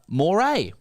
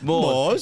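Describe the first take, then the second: First: It sounds like 'moray', with two syllables. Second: It sounds like 'moors', with one syllable. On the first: The speaker calls it right. "the correct pronunciation in that context would be closer to the eel family" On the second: The speaker calls it wrong. "Pronouncing Moors like the Moors who invaded Spain"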